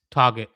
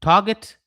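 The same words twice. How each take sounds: First: "target" dropping low and final; "target" said lower, landing flat and finished; falling tune. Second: "target" rising upward as if listing the first point; "target" said louder with the pitch climbing at the end; rising tune. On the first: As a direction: close "target" off with a firm downward fall. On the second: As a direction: lift the end of "target" like a question. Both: Shown as a demonstration. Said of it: "So, target".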